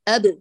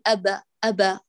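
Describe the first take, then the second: First: The b ends with no vowel after it. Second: An a vowel is added after the b. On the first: The speaker calls it right. "لا تفتحي" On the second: The speaker calls it wrong. "بيأتي بفتحة على طول"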